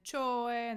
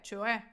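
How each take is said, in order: First: The stress is on the first syllable. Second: The stress is on the last syllable. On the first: The speaker calls it wrong. "не чое" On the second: The speaker calls it right. "З наголосом на е"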